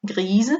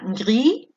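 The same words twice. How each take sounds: First: Grise ending in a voiced Z. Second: Gris ending on I, S silent; gris without S. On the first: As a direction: buzz the Z in grise. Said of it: "dos pronunciaciones diferentes de gris". (grise con S sonora) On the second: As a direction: say gris with no final sound. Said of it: "es una consonante final, no suena". (gris sin S) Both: Shown as a demonstration.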